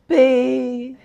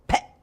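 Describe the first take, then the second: First: The syllable is said slowly and without force. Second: The syllable is said suddenly, fiercely and short. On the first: The speaker calls it wrong. "Doesn't work" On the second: The speaker calls it right. "It's almost like a sneeze"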